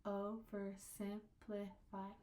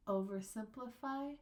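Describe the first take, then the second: First: Slow, "Oversimplify" in five separate syllables. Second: Said in the usual way. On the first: Shown as a demonstration. Teacher showing five syllables, slow and separated. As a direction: break "Oversimplify" evenly into its syllables. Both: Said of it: "There should be five".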